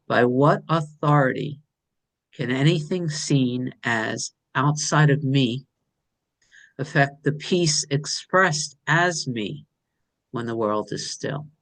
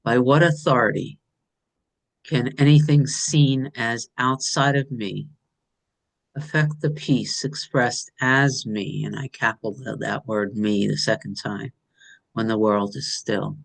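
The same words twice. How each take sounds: First: Slow, hushed and savoring each phrase; slow reverent reading. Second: A little fuller, each phrase given weight; fuller second reading. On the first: Sharing her writing with the group, slow and reverent. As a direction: read it like a sacred verse, unhurried. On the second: Repeating the verse because it feels good, fuller. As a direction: say it again, savoring how good it feels. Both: Shown as a demonstration. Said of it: "I'm gonna say that again 'cause it feels really good".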